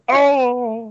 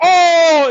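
First: The scream is said quietly. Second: The scream is said loudly.

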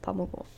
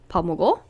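First: The pitch falls at the end. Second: The pitch rises at the end. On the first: It states that someone has eaten. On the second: It asks whether someone has eaten.

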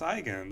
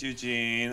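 First: The name is said the Swiss German way. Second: The name is said the common English way. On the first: "or actually it's pronounced Eigen" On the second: "My name's Eugene"

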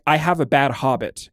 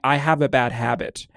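First: Habit is said with an 'ah' vowel, like hobbit. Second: Habit is said with a flat 'a' vowel. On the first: An affected, quirky way of talking. "she would say it like" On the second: The ordinary way of saying it. "instead of saying"

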